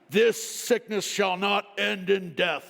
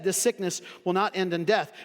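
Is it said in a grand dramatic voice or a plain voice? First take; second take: grand dramatic; plain. First: It is said in a grand, dramatic wizard-like voice. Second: It is said in a plain, ordinary speaking voice.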